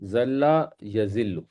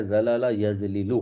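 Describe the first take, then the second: First: ذل یذل as ZAL-la ya-ZIL-lu, slowly; merged flow pronunciation. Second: زلل یزلل as za-la-la yaz-li-lu; each l kept separate in زلل یزلل; full pattern pronunciation. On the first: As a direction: slowly lean on the doubled l in ذل یذل. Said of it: "فلو میں یہ کیا بنے گا". (ذل یذل کو ٹھہر کر "زَلَّ یَزِلُّ") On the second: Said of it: "ضرب یضرب کے وزن پر بنتا ہے". (زلل یزلل کو الگ الگ "زَلَلَ یَزلِلُ") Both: Shown as a demonstration.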